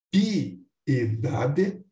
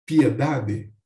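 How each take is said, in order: First: Piedade split pi-e-da-de, slowly; piedade as hiato. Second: Piedade with pie joined, pye-da-de; piedade as ditongo. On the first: Teacher showing the hiato to students, piedade pi-e-da-de. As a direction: say piedade with pi and e apart. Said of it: "O hiato". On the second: Teacher showing the sinérese, piedade as pye-da-de. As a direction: glide pi and e together in piedade. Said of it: "pode ser pronunciado como". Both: Shown as a demonstration.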